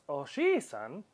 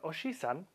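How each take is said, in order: First: The vowel after 'j' is stretched long. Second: The vowel after 'j' is short. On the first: It means grandfather. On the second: It means uncle.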